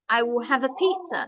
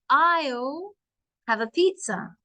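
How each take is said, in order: First: I and will are said as two full words. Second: I and will are joined into one syllable. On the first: "So I'll is I will" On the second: "we're putting two words together"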